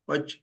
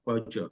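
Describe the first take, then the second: First: The word ends on a bare consonant sound. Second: The word ends with a short vowel sound. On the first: "ये च जो है ये आधा, मतलब उसे अ नहीं जोड़ा गया है" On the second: "अगर अ उसे जोड़ दिया जाए तो मैं पच ऐसा ऐसा कहूंगा"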